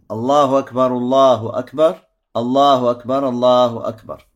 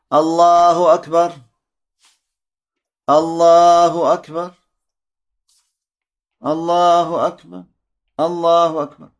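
First: The phrases are joined into two pairs. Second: Each phrase is said separately, with pauses between.

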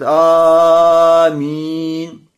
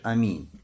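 First: The first vowel is stretched very long. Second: The first vowel is short, not lengthened. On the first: The speaker calls it wrong. "Не как некоторые говорят «Аминь»... И тянут «Аминь»... Тянут это «Аминь» в начале" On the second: The speaker calls it right. "когда вообще не тянешь, а просто говоришь аминь"

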